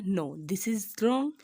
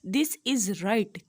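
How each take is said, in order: First: Drawn-out, emphatic wrong; teacher slowly marking an answer wrong; slow verdict. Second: Drawn-out, emphatic right; teacher slowly confirming the right answer; slow verdict. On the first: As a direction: stretch "wrong" slowly with a rising end. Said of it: "तो मैं कहूँ कि क्या ये ठीक है?". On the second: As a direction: stretch "right" slowly with a rising start on "this". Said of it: "अब मैं कहती हूँ एन umbrella". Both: Shown as a demonstration.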